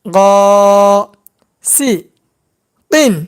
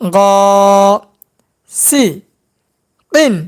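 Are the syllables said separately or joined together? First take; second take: separately; separately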